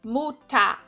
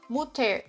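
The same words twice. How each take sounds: First: The ending is said with an a sound. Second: The ending is said with an er sound. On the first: The speaker calls it right. "tem som de A" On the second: The speaker calls it wrong. "é errado você falar"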